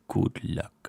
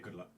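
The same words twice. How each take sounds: First: It is said in a sinister, menacing voice. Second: It is said in a normal voice.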